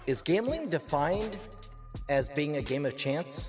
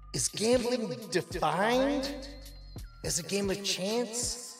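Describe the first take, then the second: First: It is said in his normal voice. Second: It is said in a put-on stoned voice.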